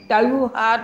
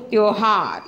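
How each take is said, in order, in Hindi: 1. पहला स्वर 'au' की ध्वनि है। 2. पहला स्वर 'o' की ध्वनि है। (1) "त्योहार नहीं बोलते" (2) "त्योहार ये सही शब्द है"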